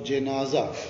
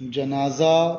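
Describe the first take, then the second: First: The first vowel is an 'i' sound. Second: The first vowel is an 'a' sound. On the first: "और ज़ेर" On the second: "जीम पर ज़बर"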